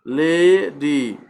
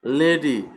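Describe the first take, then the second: First: লেডি very slowly, leee-diii, both vowels held; drawn-out syllables. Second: Said in the usual way. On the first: Shown as a demonstration. Teacher demonstrates an open syllable, লেডি drawn out. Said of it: "এই যে একটা টান আছে". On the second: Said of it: "টান আছে".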